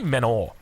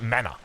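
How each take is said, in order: First: The word ends with an 'or' sound. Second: The word ends with an 'uh' sound. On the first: "we say Menor" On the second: "I don't pronounce it Mana"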